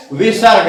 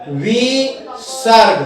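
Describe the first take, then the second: First: Said in the usual way. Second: विसर्ग slowly split as "vi... sarg"; drawn-out syllables. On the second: Shown as a demonstration. Teacher introducing a new Sanskrit term, slow and syllabic. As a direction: stretch विसर्ग into two long, separate syllables.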